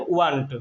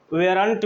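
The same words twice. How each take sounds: First: Weren't said as "wunt", no separate r syllable; correct pronunciation. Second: Weren't said in two syllables, "we-runt"; common colloquial pronunciation. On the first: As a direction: say weren't compactly as "u-WUNT", dropping the "veh-r" sound. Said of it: "इसका शुद्ध उच्चारण है". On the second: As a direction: say weren't as "VEH-runt", with an e vowel first. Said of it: "आम भाषा में". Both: Shown as a demonstration.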